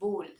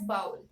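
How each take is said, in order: First: The vowel does not sound like owl. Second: The vowel sounds like the word owl. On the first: It names the intended thing. The speaker calls it right. "The actual pronunciation of this word should be bowl" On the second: It names a different thing. The speaker calls it wrong. "pronounced as owl, they pronounce B O W L as bowl"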